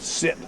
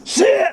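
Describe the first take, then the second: First: The word is said at a calm, normal volume. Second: The word is yelled loudly and sharply. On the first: "the nice sit" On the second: "Now you're yelling this good command at her"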